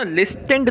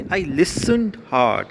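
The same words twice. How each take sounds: First: लिस्टेंड with a hard T, "lis-TEND"; T sounded in लिस्टेंड. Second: Listened said "LIS-und", no T; silent T in listened. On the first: Teacher showing pupils the misreading, लिस्टेंड with its T sounded. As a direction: pronounce the T in लिस्टेंड. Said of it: "इसको ना लिस्टेंड नहीं पढ़ना है". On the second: Teacher correcting pupils' reading, listened with the T silent. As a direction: leave the T out of listened. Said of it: "टी silent रहता". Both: Shown as a demonstration.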